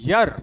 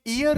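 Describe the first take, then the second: First: The word starts with a y sound. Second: The word starts with a plain vowel sound. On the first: The speaker calls it right. "This is यर" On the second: The speaker calls it wrong. "ये ईयर नहीं होता"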